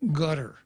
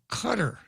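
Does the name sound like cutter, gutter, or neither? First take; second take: gutter; cutter. First: It sounds like the English word gutter. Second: It sounds like the English word cutter. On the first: "It's gutter" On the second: "Or it's cutter"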